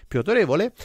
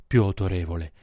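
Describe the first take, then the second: First: Said in the usual way. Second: Much lower, deep chest voice. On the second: Shown as a demonstration. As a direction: sink it down to sound authoritative. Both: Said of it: "quando fai la voce bassa come sembri più".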